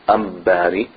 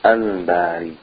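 First: An M sound comes before the b. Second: A clear L sound comes before the b. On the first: The speaker calls it wrong. "We don't say Ambari" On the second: The speaker calls it right. "we say Al-Bari"

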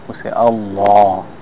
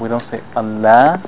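First: The L sound is thick and heavy. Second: The L sound is thin and light. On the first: The speaker calls it right. "See how I make the O sound?" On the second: The speaker calls it wrong. "we don't say"

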